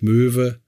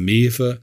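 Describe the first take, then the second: First: The vowel is rounded, as in standard German. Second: The vowel is unrounded, as in dialect.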